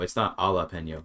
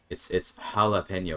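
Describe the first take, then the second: First: The J is not pronounced as an H. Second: The J is pronounced as an H sound. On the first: The speaker calls it wrong. "It's not" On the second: The speaker calls it right. "the J is an H there"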